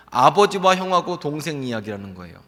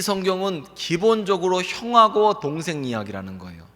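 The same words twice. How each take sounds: First: 아버지와 punched first as the key word; stress on 아버지와. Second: 형하고 given the main weight; stress on 형하고. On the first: Preacher correcting himself to stress 아버지와 in the story. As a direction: put the weight on 아버지와. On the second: Preacher stresses 형하고 before correcting himself, weight on 형하고. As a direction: lean on 형하고 as the key word. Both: Real, not acted.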